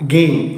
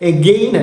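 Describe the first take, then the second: First: The first vowel is very short and reduced. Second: The first vowel is full and clear. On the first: The speaker calls it right. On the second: The speaker calls it wrong.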